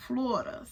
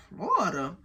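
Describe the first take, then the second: First: Said in the usual way. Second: "Florida" as a questioning echo, pitch jumping then dropping; doubtful echo. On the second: Retold or imitated. Storyteller questioning the man's answer, doubtful "Florida" with a swooping pitch.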